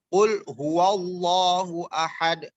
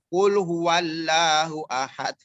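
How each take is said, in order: First: The 'lah' has a heavy, O-like vowel. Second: The 'lah' has a thin, light vowel. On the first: The speaker calls it right. "seakan-akan huruf O" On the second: The speaker calls it wrong. "jangan baca kul huwallahu ahad. Itu itu orang yang cadel"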